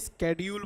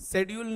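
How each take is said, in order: First: The word begins with a sk sound. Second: The word begins with a sh sound. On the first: "स्केड्यूल बोलो" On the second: "शेड्यूल नहीं"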